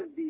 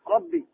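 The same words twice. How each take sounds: First: The r sound is light and thin. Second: The r sound is heavy and full. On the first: The speaker calls it wrong. "ما تقول الحمد لله ربي، لا لا خطأ" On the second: The speaker calls it right. "راء فخمة"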